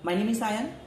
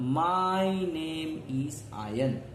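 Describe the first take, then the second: First: It is said very fast. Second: It is said slowly.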